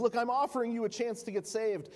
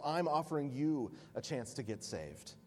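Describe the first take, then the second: First: Higher and louder, pressing hard; urgent offer. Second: Calm reply. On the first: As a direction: push the offer insistently. Proconsul pressing his offer. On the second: Polycarp calmly turns it around. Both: Acted.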